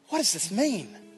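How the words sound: It sounds amazed and full of wonder.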